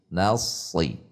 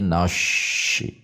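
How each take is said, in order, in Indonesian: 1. Bunyi s berat dengan pangkal lidah yang tegang. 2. Bunyi s berubah menjadi bunyi sh. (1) "tegangkan pangkal lidah, bukan dengan membulatkan bibir" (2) "Menjadi shin besar, beda makhrajnya"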